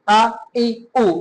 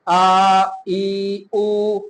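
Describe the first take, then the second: First: The vowels are cut short with a jerk. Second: The vowels are stretched out too long. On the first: "अगर झटका देंगे ना" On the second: "अगर ज्यादा लंबा कर दिया"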